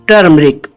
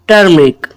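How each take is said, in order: Both takes have the same delivery.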